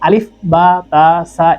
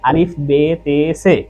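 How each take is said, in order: First: The letter names end in an a vowel. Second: The letter names end in an e vowel. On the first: The speaker calls it right. "আমাদেরকে আলিফ বা তা সা এভাবে শেখানো হতো না" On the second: The speaker calls it wrong. "এটা ফুললি একটা রং কনসেপ্ট।"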